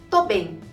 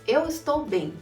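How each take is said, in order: First: The phrase is cut down to two syllables. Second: Every syllable of the phrase is said in full. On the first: It is how people actually say it. "A gente diz tô bem" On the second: It follows the written form. "do jeito que é escrito"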